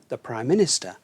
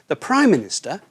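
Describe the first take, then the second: First: The stress falls on the second word. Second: The stress falls on the first word. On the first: The speaker calls it right. "we put the stress on the second part" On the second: The speaker calls it wrong. "the stress is put on the first part"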